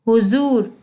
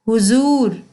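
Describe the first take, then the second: The two takes are said the same way.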